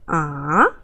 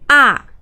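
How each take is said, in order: First: The pitch dips low, then rises again. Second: The pitch falls sharply from high to low. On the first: "go down a little bit and go up" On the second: "just go down straight"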